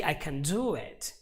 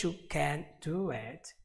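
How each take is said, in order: First: Quick unstressed "can" leading into a strong "DO it"; stress on DO. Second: "CAN'T" held with a full A, then "do it"; strong "CAN'T", slight break before "do it"; stress on CAN'T. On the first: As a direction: put all the emphasis on "do". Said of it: "all the emphasis is on the word do". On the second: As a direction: move the weight off "do" onto "can't". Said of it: "all the emphasis is not on the action anymore". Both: Shown as a demonstration.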